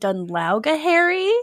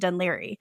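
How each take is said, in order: First: The name is sounded out from its spelling. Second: The name is said the short local way. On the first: The speaker is unsure how the name is pronounced. The speaker calls it wrong. "she's just trying to figure out how to pronounce it" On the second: The speaker knows the name well. The speaker calls it right. "Actually, it's pronounced Dunleary"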